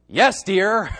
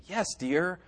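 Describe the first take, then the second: First: Louder, emphatic YES dear with a laugh; pointed yes dear. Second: Soft, understated yes dear; mild yes dear. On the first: Showing the congregation the contrasting tone, pointedly. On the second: Showing the congregation one tone of a reply, softly. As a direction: answer quietly and agreeably. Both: Shown as a demonstration. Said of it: "there's a great difference between".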